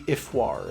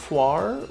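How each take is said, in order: First: It starts with 'ee' and has a French-sounding ending. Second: It starts with 'ar' and has a French-sounding ending. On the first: This is how it would sound in proper French. "if we were pronouncing it in proper French" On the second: This is how the players have been saying it. "we've been pronouncing it Arfoire"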